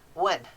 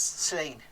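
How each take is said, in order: First: The word begins with a W sound. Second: The word begins with an S sound. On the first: This is the English way of saying it. "for us English people, they pronounce the double L like a W" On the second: This is the Welsh way of saying it. "they say the Welsh, it sounds like the double L sounds like an S"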